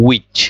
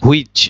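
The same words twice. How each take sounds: First: "which" said "wich", no h; correct pronunciation. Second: "which" said "hu-ich", h sounded; wrong pronunciation. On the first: Teacher gives the correct pronunciation, "which" as "wich". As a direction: start "which" on a plain w. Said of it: "এটার correct প্রনাউন্সিয়েশনটা হচ্ছে". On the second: Teacher shows learners the mistake, "which" as "hu-ich". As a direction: open "which" on an h, "hwich". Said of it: "ভুল pronunciation". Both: Shown as a demonstration.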